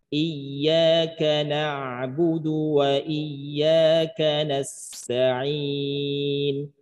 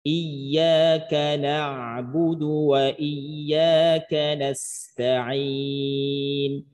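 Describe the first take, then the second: No difference in how they are said.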